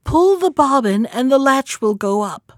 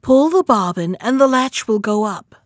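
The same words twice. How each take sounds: First: Higher-pitched grandmother's call; lightly raised, high calling voice; crying out. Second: Lightly coaxing wolf posing as grandmother; a hint of gentle disguise; softened wolf voice. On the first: Acted. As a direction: call it out from the sickbed. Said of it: "cried out". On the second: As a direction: call out, easing the voice a touch. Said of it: "softening his voice as much as he could".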